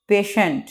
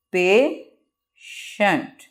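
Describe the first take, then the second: First: Said in the usual way. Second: patient as pay, long pause, shent; very slow two-part patient; broken into syllables. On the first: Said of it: "इसको pronunciate कर लेते हैं". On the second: Shown as a demonstration. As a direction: leave a long gap inside patient. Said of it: "word को रुक रुक के बयान करना".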